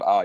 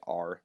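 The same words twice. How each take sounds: First: "R" said as "ah", no R sound; soft New Zealand R. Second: "R" with a strong American R, like a pirate; hard pirate R. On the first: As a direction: drop the R in "R", New Zealand style. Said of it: "Instead of R". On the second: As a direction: curl the R hard in "R". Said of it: "like a pirate". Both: Shown as a demonstration.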